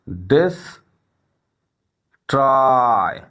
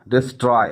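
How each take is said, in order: First: The word is broken into two separate syllables. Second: The word is said smoothly in one piece.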